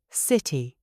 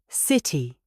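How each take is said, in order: Both takes have the same delivery.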